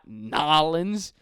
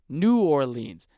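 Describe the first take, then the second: First: The name is squeezed into two short syllables. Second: The name is said in full syllables. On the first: The speaker calls it wrong. "in New Orleans we say Nolans" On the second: The speaker calls it right. "It's fucking New Orleans. Just like Orleans from Europe"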